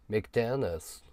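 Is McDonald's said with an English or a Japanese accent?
English. It is said with a native English accent. It sounds cool and sophisticated. "かっこいいでしょ？ レベルが違うんだよ。"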